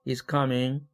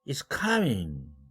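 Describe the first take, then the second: First: The pitch stays level at the end. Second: The pitch jumps very high at the end. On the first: The speaker has more to say. "말이 아직 안 끝났을 때" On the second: The speaker is surprised. "사까지 초고음으로 올라갔어요"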